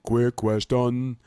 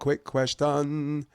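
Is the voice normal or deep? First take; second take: deep; normal. First: It is said in a deep bass voice. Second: It is said in a normal speaking voice.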